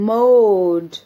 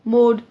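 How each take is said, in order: First: The vowel is stretched out very long. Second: The vowel is said short and plain. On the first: The speaker calls it right. "मैं इसको बहुत ही elongate कर रही हूँ" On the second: The speaker calls it wrong. "अगर हम इसको खाली बोलेंगे जैसे"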